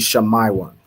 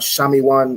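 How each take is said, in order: First: The letter I is said as 'eye'. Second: The letter I is not said as 'eye'. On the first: The speaker calls it right. "Wherever you see the letter I, you want to pronounce it as I" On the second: The speaker calls it wrong. "It's not Shami one"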